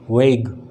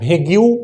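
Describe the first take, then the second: First: It is one syllable with no final vowel. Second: It ends with an added 'yoo' syllable. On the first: The speaker calls it right. "इसको कहते हैं वेग, it's not भेग्यू" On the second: The speaker calls it wrong. "आप अभी तक पढ़ रहे थे भेग्यू"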